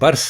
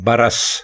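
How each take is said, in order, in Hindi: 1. r और s के बीच कोई स्वर नहीं है। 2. r और s के बीच एक छोटा 'a' है। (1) "ये बरस नहीं है" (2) "रे के ऊपर भी ज़बर है"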